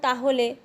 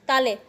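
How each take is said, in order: First: The word is said in full, three syllables. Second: The word is said fast, shortened to two syllables. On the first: "যেমন তাহলে উদাহরণটাতে যদি দেখি" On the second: "দ্রুত উচ্চারণ করার ফলে হয়ে যাচ্ছে তালে"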